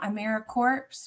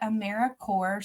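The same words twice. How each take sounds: First: The ending sounds like 'corpse', with ps voiced. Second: The ending sounds like 'core', with silent ps. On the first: The speaker calls it wrong. "it's not AmeriCorps. We are alive and well" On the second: The speaker calls it right. "we do pronounce it AmeriCorps, so kind of like Apple Corps, Peace Corps"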